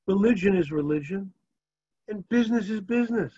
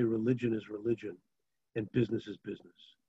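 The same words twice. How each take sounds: First: Higher, knowing thief's excuse; a wink of a town thief; sly thief. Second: Said in the usual way. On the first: Retold or imitated. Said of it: "He looks at him and he says". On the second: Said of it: "You cannot say".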